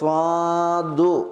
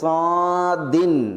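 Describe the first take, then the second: First: It ends with a short u vowel. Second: It ends with a short i plus n. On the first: "സ്വാദു ദമ്മായിട്ട്" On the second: "സ്വാദിൻ തൻവീനോടുകൂടി"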